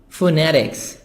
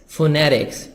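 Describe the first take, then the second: Both takes have the same delivery.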